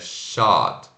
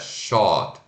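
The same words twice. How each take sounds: First: The vowel is an open 'ah' sound. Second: The vowel is a rounded 'oh' sound. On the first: The speaker calls it right. "é shot" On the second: The speaker calls it wrong. "Não é shot"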